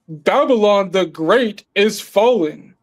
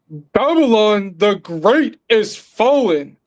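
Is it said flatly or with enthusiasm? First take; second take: flatly; enthusiasm. First: It is said flatly, without much energy. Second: It is said deeply, with enthusiasm.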